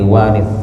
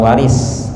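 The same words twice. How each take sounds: First: The final consonant is a lisped th sound. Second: The final consonant is a plain s sound. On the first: The speaker calls it right. "W A R I T S, jadi waris" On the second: The speaker calls it wrong. "bukan waris"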